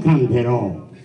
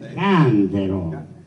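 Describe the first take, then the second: First: The stress is on the last syllable. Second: The stress is on the first syllable. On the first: I will sing. The speaker calls it wrong. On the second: A chamber pot. The speaker calls it right.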